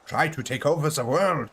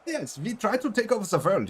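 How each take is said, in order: First: Put-on German accent. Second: Much higher cartoon sidekick voice; cartoon Pinky voice. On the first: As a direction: proclaim world domination in a hammed-up German accent. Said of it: "why he came out German then". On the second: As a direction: squeak it up like a goofy cartoon mouse. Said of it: "I'm called Pinky is 'cause of Pinky in the Brain".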